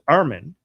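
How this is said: The name is said with an English pronunciation. This is the name used in English. "My my English name is Armin"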